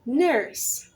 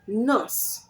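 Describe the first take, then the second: First: The vowel is pulled in by the R. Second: The vowel is plain, without R coloring. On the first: The speaker calls it right. "you say" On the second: The speaker calls it wrong. "Instead of saying"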